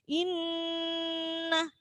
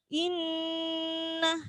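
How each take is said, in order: No difference in how they are said.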